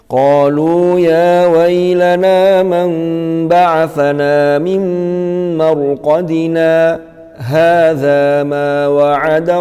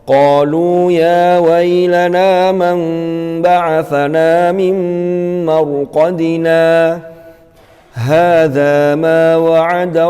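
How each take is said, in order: First: A brief pause without breath follows marqadina. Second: It stops fully after marqadina, taking a breath. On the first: "Kalau sakta" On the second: "Itu kalau wakaf di mim marqadina"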